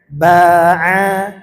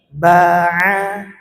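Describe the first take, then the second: The two takes are said the same way.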